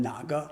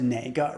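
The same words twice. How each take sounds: First: 哪个 said as "na ge", standard Mandarin; standard pronunciation. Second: 哪个 said as "nei ge", northern Beijing style; Beijing pronunciation. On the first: Teacher gives the standard 哪个, "na ge", for contrast. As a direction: say 哪个 with a plain "na". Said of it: "rather than". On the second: Teacher admits saying 哪个 the Beijing way, "nei ge". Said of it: "That's just an accent difference". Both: Shown as a demonstration.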